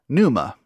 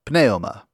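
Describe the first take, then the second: First: The initial P is silent. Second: The initial P is pronounced.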